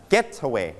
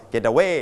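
First: "getaway" with GET stressed, the rest falling away; stress on first syllable. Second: "getaway" with the stress moved onto WAY; misplaced final stress. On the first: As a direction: hit GET in "getaway", then let "away" drop. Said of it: "เราลงเสียงหนักที่พยางค์ที่หนึ่ง". (เน้นเสียงหนักที่พยางค์แรก GET ในคำว่า "getaway") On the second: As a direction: push the last syllable of "getaway", getaWAY. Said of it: "จะไม่ออกเสียงว่า getaway แบบนี้ไม่ถูก". (ลงเสียงหนักผิดที่พยางค์ท้าย WAY ในคำว่า "getaway") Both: Shown as a demonstration.

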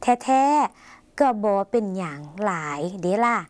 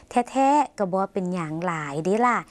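First: "แท้ๆ ก็บอเป็นหยังหลายเดล่ะ" read slowly in separate chunks, with pauses between parts; phrase by phrase. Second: "แท้ๆ ก็บอเป็นหยังหลายเดล่ะ" said as one connected, measured phrase; joined-up reading. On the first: Teacher showing viewers how to split a Lao sentence, slow chunked reading. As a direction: pause after "แท้ๆ", then space out "ก็บอเป็นหยัง", "หลาย", "เดล่ะ". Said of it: "แยกส่วนต่างๆ ของประโยค".

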